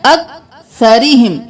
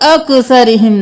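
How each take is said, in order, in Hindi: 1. k की आवाज़ स्थिर है, उछाल नहीं। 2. k की आवाज़ में गूँज वाला उछाल है। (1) "काफ को साकिन रखना है, कलकला नहीं है" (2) "यहाँ पे अक्सरिहिम नहीं करना"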